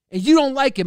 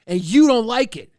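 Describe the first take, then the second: First: Higher and louder, punching you; louder, higher jab. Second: Loud, stress on you; loud jab. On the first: Streamer repeating the jab louder at chat, escalating. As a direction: escalate the bark. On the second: Streamer barking back at chat, loud with stress on you. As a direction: bark it back at them. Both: Acted. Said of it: "I like barking".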